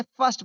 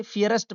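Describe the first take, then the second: First: फर्स्ट said as one syllable, "furst"; correct pronunciation demo. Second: फियरेस्ट said as "fee-a-rest" for first; children's misreading. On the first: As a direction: say फर्स्ट in one beat, not "fee-a-rest". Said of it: "इसे फर्स्ट पढ़ा जाता है". (फर्स्ट का सही उच्चारण, एक ही ध्वनि में) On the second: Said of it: "बहुत सारे बच्चे फियरेस्ट पढ़ेंगे". (first का गलत उच्चारण "फियरेस्ट") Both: Shown as a demonstration.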